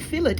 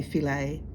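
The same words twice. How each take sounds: First: "fillet" as FILL-it, sounded t; English fillet. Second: "filet" as fi-LAY, silent t; French-style filet. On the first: Shown as a demonstration. Correcting American friends, "fillet" said as fill-it. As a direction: say "fillet" with a hard final t. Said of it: "fillet exists in English". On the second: Retold or imitated. Mocking the American way, "filet" as fi-lay. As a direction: end "filet" on an open ay. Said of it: "You don't have to say filet".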